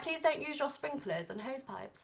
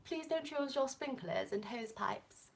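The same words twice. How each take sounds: First: Softer, higher put-on British voice; lightly hammed-up British accent; best British accent. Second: Hushed, slow put-on British voice; slow, whispery British accent; best British accent. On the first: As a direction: read it like a proper British notice. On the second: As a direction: draw it out softly in mock-proper British. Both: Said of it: "That was my best British accent".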